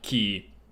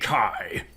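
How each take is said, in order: First: The vowel is a long ee sound. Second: The vowel is an eye sound. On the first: "pronounced like key" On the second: "some say Kai"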